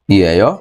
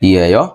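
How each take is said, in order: Both takes have the same delivery.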